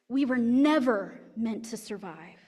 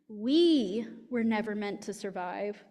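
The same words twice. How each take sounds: First: The word never carries the main stress. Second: The word we carries the main stress. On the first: Eventually everyone will die. "If we put the emphasis on never" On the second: Those now living were not meant to survive, but their children may. "To put the emphasis on we"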